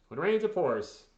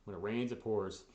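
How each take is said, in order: First: Louder and higher, exclaimed; emphatic repeat. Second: Said in the usual way. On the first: Real, not acted. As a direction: belt the saying out in exasperation. Same saying repeated for emphasis.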